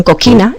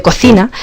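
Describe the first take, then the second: First: Coquina with a hard k sound, as students wrongly say it; student mispronunciation. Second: Said in the usual way. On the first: Retold or imitated. Teacher imitating students who say coquina instead of cocina. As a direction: say coquina the way learners misread it. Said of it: "cuando dicen coquina en lugar de". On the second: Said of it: "en lugar de".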